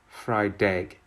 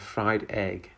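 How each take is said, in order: First: The two words are linked together smoothly. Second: The two words are said separately. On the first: "fried egg instead of" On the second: "instead of fried egg"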